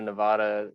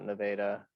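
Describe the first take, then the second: First: The name is said the standard way. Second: The name is said the local Texas way. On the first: "instead of Nevada" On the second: "we call it Nevada, so we pronounce it differently"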